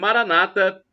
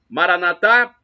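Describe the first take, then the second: First: The stress is on the second-to-last syllable. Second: The stress is on the last syllable. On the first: This is the evangelical way of saying it. "pronúncia com a tônica na penúltima sílaba" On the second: "dita pelos católicos"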